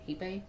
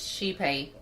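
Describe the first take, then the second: First: The name starts with an h sound. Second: The name starts with an sh sound. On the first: This is the Spanish pronunciation. "in Spanish it was he, Hipe" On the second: This is the original-language pronunciation. "that was like the original language pronunciation"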